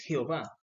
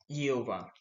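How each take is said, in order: First: It begins with a raspy throat sound. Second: It begins without a raspy throat sound. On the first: This is how it is said in Latin America. "Nosotros en Latinoamérica pronunciamos" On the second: This is how it is said in Hebrew. "en el hebreo no existe la J y se dice"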